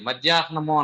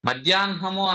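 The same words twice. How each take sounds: First: The n sound comes after the h sound. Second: The n sound comes before the h sound. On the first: The speaker calls it wrong. "మధ్యాహ్నము అనకూడదు" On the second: The speaker calls it right. "మధ్యాహ్నము అనాలి"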